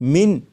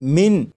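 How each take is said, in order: First: The word ends with a clear n sound. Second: The same.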